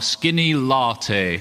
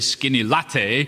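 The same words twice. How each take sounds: First: The first vowel of latte is long. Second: The first vowel of latte is short. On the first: "I have to put the long A vowel sound in, which isn't really me" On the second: "I'm much more likely to say skinny latte, as was said just a moment before"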